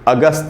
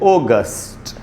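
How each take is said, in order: First: It is said with a Hindi pronunciation. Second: It is said with an English pronunciation. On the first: "इसको अगस्त हिंदी में बोल सकते हैं आप" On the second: "English में बोलना चाहिए ओगस्ट"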